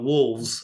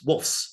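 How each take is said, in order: First: The word ends with a v sound before s. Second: The word ends with an f sound before s. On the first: The speaker calls it wrong. "It's not wolves" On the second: The speaker calls it right. "like wolf with the letter S after it"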